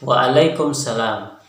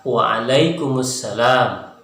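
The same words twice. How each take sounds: First: "Waalaikumsalam" said slowly as waalaikumsalam, no vowel before salam; slow, run "Waalaikumsalam" together without the u sound; common Indonesian way. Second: "Waalaikumsalam" very slow as waalaikumu-salam with the added u; correct Arabic form. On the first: Teacher shows the common wrong "Waalaikumsalam" to students, without the u. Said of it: "terbiasa misalnya jawabannya". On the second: Teacher shows students the correct "Waalaikumsalam", slow, with the u. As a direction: spell out "Waalaikumsalam" slowly, sounding the u before salam. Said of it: "Yang betulnya adalah".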